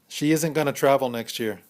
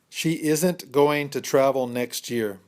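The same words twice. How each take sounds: First: The sentence is spoken at a fast pace. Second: The sentence is spoken at a slow pace.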